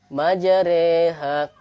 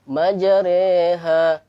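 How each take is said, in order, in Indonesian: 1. Vokal setelah r condong ke e. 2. Vokal setelah r condong ke e.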